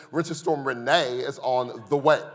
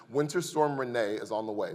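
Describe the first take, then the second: First: "Renee" said like a gossip about a friend, a touch louder; heard as a woman's name. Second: Said in the usual way. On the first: Shown as a demonstration. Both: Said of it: "I heard it like this".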